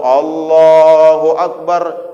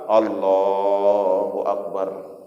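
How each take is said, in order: First: It is said at full, normal loudness. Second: It is said softly and quietly.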